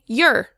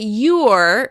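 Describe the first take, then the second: First: The vowel is reduced to an indistinct sound. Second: The vowel is full and clearly pronounced. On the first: The speaker calls it right. "we say you're" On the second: The speaker calls it wrong. "We don't say you're"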